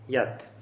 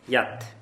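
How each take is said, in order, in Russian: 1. Слово заканчивается на звук t. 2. Слово заканчивается на звук t.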